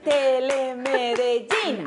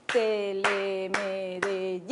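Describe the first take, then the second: First: "Telemedellín" lento con golpe en "llín"; acento en la í. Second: "Telemedellín" muy lento, sílaba por sílaba; separando sílabas. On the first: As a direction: carga la fuerza en "llín" de "Telemedellín". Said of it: "el acento te lo hago". (acento marcado al final de "Telemedellín") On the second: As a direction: marca cada sílaba de "Telemedellín" despacio. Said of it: "Entonces dicen". (dictado silábico lento) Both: Shown as a demonstration.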